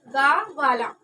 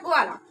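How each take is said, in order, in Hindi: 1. यह एक अलग, पूरे 'ga' अक्षर से शुरू होता है। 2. यह एक कसी हुई 'gw' व्यंजन संयुक्त ध्वनि से शुरू होता है। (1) "पूरा गा लिखते उसकी पाई नहीं हटाते थे कि उसका उच्चारण क्या हो जाता था?" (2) "उसका उच्चारण क्या हो गया?"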